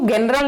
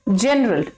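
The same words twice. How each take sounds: First: The word begins with a hard G sound. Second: The word begins with a J sound. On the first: The speaker calls it wrong. "जनरल नहीं बोलेंगे" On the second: The speaker calls it right. "Soft जी, यानी ज की sound"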